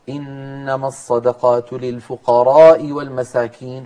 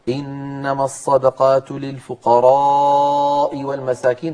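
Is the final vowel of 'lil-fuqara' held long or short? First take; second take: short; long. First: The vowel in 'fuqara' is kept short. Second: The vowel in 'fuqara' is drawn out long. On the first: The speaker calls it wrong. "فلم يمد صوته في ألف الفقراء" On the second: The speaker calls it right. "فمد صوته"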